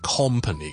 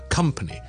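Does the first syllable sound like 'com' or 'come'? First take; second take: com; come. First: The first syllable sounds like 'com'. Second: The first syllable sounds like 'come'. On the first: The speaker calls it wrong. "就唔会变成company 嘅" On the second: The speaker calls it right. "company 係come"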